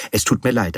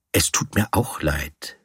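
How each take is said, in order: First: Said in the usual way. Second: "auch" leaned on, lower-pitched reply; stress on AUCH. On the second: A narrator's reading. Narrator returning Horwitz's apology over the bill, stress on "auch". Echoes the other man's apology back.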